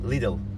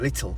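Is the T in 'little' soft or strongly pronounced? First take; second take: soft; strong. First: The T in the middle is soft. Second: The T in the middle is strongly pronounced. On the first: "little normalde" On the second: "biraz daha vurgulu söylüyorlar"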